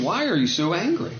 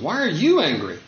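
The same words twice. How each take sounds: First: Said in the usual way. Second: "you" stressed, falling away after it. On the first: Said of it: "the Lord says to Cain". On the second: Acted. The Lord questioning Cain, stress on "you". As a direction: lean on "you" to press the question. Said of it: "That's the question".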